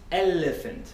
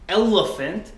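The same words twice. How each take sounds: First: The L sound is light and clear. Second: The L sound is dark and heavy. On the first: "pretty much the same but lighter" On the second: "instead of saying elephant"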